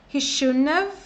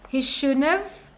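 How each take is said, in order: No difference in how they are said.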